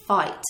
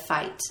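First: "fight" with an Outer Banks vowel, like "foit"; Outer Banks pronunciation. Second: Said in the usual way. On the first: Shown as a demonstration. Showing how Outer Banks people say "fight", Cockney-like vowel. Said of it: "they'll say "fight" instead of "fight". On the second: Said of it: "instead of "fight".

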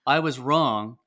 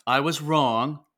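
First: "I was wrong" said loud and firm; three-point apology step. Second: Loud, stressed I was wrong; three-point apology step. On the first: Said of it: "So it's like". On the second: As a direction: say "I was wrong" louder and firmly. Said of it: "It was, um". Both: Shown as a demonstration.

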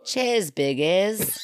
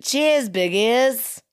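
First: Slow, hammed-up Australian accent. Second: Cheers, biggies in a slow, hammed-up Australian accent; broad Aussie toast, drawn out. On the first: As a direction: drag it out like a cheeky Aussie. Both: Shown as a demonstration. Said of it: "was that not Australian accent?".

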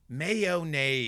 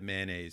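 First: Mayonnaise in full, may-oh-naise, a bit louder; Mayonnaise, the careful grown-up way. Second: Mayonnaise said as two syllables, man-aise; mayonnaise, clipped to man-aise. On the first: Shown as a demonstration. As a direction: spell out all three syllables of Mayonnaise. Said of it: "I said mayonnaise because I said things the easiest way". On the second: Retold or imitated. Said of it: "Probably when I was younger".

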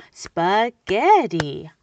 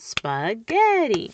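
First: Spaghetti split slowly and loudly as spa-ghe-tti; clapped-out syllables. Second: Spaghetti said slowly in separate beats; clapped-out syllables. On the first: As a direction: clap spaghetti into three beats, slow and loud. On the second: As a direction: clap spaghetti out beat by beat. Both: Shown as a demonstration. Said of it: "I'm clapping it out".

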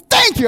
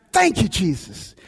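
First: Thanks blurted out high and loud; bursting with joy, thank them; elated thanks. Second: Quiet grateful prayer. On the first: Pastor thanking the dealership staff as his car arrives, elated. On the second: Pastor thanking Jesus walking to his car, softly grateful. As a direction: breathe it out as a private prayer. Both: Retold or imitated. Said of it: "it was a hallelujah moment".

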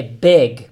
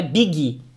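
First: "big" as one syllable, near "beg", louder; "big" with no vowel after the g; correct BIG. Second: "big" with an added "ee", like "biggy"; learner's "big" ending in "gui"; mispronounced BIG. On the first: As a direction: say "big" lower, stopping on the g. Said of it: "é big". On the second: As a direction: say "big" wrongly as two syllables. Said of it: "Não tem gui no final". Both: Shown as a demonstration.

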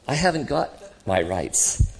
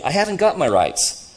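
First: Slow, measured admission; calm spirit. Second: Loud, high protest of an indignant man; aggrieved ghost. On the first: Spirit answering the ghost about rights, calm. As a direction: concede it gently, without grievance. Spirit calmly admits the same. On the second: Ghost insisting on his rights to the other, aggrieved. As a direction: complain hotly of being cheated. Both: Acted.

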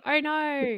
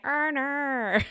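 First: Higher-pitched Australian "oh, no"; Australian accent. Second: Exaggerated, drawn-out Aussie "oh, naur"; higher, hammed-up Australian "oh, no"; internet's Australian accent. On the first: Shown as a demonstration. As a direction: demonstrate the Australian O. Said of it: "I'll do it for you". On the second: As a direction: mimic the online parody of Australian O. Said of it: "as everyone on the internet keeps saying".

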